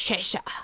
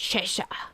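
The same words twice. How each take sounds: First: The name is said in the British way. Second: The name is said in the British way.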